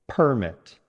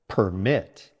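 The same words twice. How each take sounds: First: The stress is on the first syllable. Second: The stress is on the second syllable. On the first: It is a noun meaning an official document. "Stress on the first syllable" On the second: It is a verb meaning to allow. "Stress on the second syllable"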